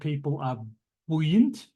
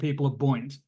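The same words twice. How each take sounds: First: Buoyant is pronounced the American way. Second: Buoyant is pronounced the British way. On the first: The speaker calls it wrong. "I know you Americans are very fond of the of the pronunciation buoy, but if you're going to do that, you have to say" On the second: The speaker calls it right. "if you're not going to say that, just say that they're buoys, it's buoyancy, and"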